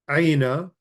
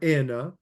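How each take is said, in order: First: The first vowel is a full gliding 'ai' sound. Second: The first vowel is softened to a plain 'e'.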